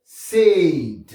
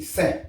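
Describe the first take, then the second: First: "Saint" with long AY, sounded N and T; English pronunciation. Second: "saint" with short nasal vowel, silent N and T; French nasal pronunciation. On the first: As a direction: stretch "Saint", release the final T. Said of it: "il faut prononcer T là". (« Saint » à l'anglaise, allongé, T prononcé) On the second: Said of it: "c'est nasalisé". (« saint » à la française, nasalisé, T muet) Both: Shown as a demonstration.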